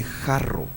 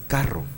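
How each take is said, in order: First: "jarro" with a throaty Spanish J, rolled double R. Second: "carro" with a hard K, rolled double R. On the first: Teacher reads the letter without dagesh as a throaty J. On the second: Teacher reads the letter with dagesh as a hard K. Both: Shown as a demonstration. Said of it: "Pero si yo le pongo un dagesh".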